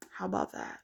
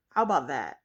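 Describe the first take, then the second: First: "How about that?" whispered low under the breath; whispered aside. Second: Said in the usual way. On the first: Real, not acted. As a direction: mutter it again as a voiceless aside. Repeats jab under breath.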